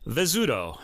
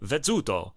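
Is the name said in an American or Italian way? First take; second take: American; Italian. First: It is said the American way. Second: It is said the Italian way, zz as ts.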